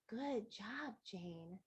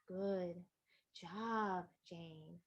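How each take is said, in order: First: It is said at normal pace and volume. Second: It is said slower and louder.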